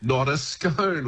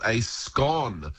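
First: SCONE rhyming with bone, slow; long-O scone. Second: SCONE rhyming with gone; short-O scone. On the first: Word expert rejecting the other version, slow long-O SCONE. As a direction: drag SCONE out as "skohn". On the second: Word expert on northern English and Scottish usage, short-O SCONE. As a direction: say SCONE as "skon". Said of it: "They absolutely call it a scone". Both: Shown as a demonstration.

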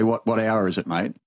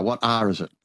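First: "hour" said as Australian "hour" with a full vowel. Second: "R" said like the letter R, in the English way. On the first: Australian mate asking the time, "hour" said the Australian way. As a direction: ask the time the Aussie way, "hour" unclipped. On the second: Newcomer copying the English way, "R" said like the letter. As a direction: clip "hour" down to the letter "R". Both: Shown as a demonstration. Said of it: "Hour became R".

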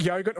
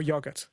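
First: "yogurt" with a long O, as in "go". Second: "yogurt" with a short O, as in "dog". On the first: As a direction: say "yogurt" starting like "yoh". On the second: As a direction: say "yogurt" starting like "yog". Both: Shown as a demonstration. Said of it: "yogurt or yogurt".

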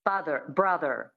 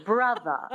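First: Father and brother each ending in a sounded R; standard American R. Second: Brother ending in a schwa, no R; non-rhotic transatlantic "brother"; transatlantic dropped R. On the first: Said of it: "So that's the American". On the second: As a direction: say brother as "bruh-thuh". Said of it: "you drop the R and you make it a schwa". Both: Shown as a demonstration.

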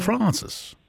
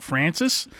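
First: "Francis" said as Frahn-sis; broad Francis. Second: "Francis" said as Fran-sis; flattened Francis. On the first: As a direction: open the a of "Francis" to ah. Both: Shown as a demonstration. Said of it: "do you flatten it out".

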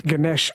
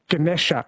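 First: "Ganesh" with no final vowel; northern Indian pronunciation. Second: "Ganesha" with the final schwa kept; southern Indian pronunciation. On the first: Host naming elephant god, Ganesh as said in north India. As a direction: end "Ganesh" on the sh, guh-NESH. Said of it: "in the north". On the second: Host naming elephant god, Ganesha as said in south India. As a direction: say "Ganesha" as guh-NESH-uh. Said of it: "in the south". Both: Shown as a demonstration.

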